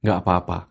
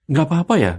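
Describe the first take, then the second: First: "Nggak apa-apa." lower and settled, falling like a statement; firm statement tune. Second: "Nggak apa-apa ya?" pitched high with an anxious questioning lilt; worried question tune. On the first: Guest demonstrates turning the anxious question into a calm statement. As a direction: state "Nggak apa-apa" flatly as a done fact, falling at the end. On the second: Guest demonstrates the anxious question before changing the intonation. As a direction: ask "apa-apa ya" as a nervous, unsure question. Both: Shown as a demonstration. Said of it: "Ubah menjadi pernyataan".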